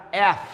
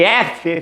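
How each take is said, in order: First: F said the English way as "ef", no final vowel; English letter name. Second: F said the Portuguese way as "éfe" with final vowel; Portuguese letter name. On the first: Teacher gives the correct English "ef" to students. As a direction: drop the last E: "ef". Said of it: "fica F". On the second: Teacher shows the Portuguese "éfe" to avoid. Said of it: "em vez de F". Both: Shown as a demonstration.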